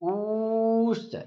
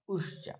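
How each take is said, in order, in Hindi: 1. स्वर को तीन मात्रा जितना खींचा जाता है। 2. स्वर को एक छोटी मात्रा जितना रोका जाता है। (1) "इतना लंबा खींच दिया ना, तीन मात्राओं का समय लग गया" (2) "एक मात्रा जिसके उच्चारण में एक मात्रा का समय लगे उसको ह्रस्व कहेंगे"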